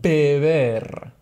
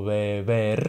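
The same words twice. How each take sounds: First: The first b is a full stop, lips closing. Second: The first b is soft, with lips not closing. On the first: "Se ho N o M prima di beber, avremo di nuovo B" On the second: "Avremmo in questo caso due V"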